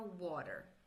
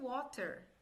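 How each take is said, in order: First: The t sounds like a quick soft d. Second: The t is pronounced as a clear t. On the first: This is the American way. "na pronúncia americana, tá? Vai ficar water" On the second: This is how it is written. "Tá escrito water"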